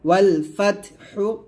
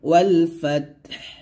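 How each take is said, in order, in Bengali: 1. শেষ শব্দটি হ্রস্ব উ স্বরে শেষ হয়। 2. শেষ শব্দটি স্বরহীন হ ধ্বনিতে শেষ হয়।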